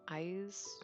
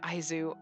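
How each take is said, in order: First: The word ends without any final u vowel. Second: The word ends with an audible final u vowel. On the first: The speaker calls it right. "I know it's Aiz" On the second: The speaker calls it wrong. "I don't think you pronounce the U"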